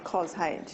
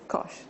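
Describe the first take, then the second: First: It is said as cos plus the letter H. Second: It is said as one single syllable. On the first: The speaker rarely uses these functions. The speaker calls it wrong. "someone hasn't been using them very much because they'll say cos H" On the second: The speaker uses these functions all the time. The speaker calls it right. "most people that use them all the time just say cosh"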